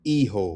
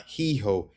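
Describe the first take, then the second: First: Hijo said ee-ho; silent H. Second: He-ho with English H at the start; sounded H. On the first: Teacher giving the correct word for son, "Hijo" with silent H. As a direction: start "Hijo" straight on the ee. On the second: Teacher showing the mistake, "he-ho" with sounded first H. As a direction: breathe both H sounds in "he-ho". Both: Shown as a demonstration. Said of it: "It's not he-ho".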